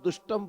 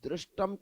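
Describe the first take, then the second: First: The first syllable has a plain 'u' vowel. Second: The first syllable has an 'r' with an 'i' vowel. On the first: The speaker calls it wrong. "दुष्टम बोलने लगे" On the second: The speaker calls it right. "दृष्टम था"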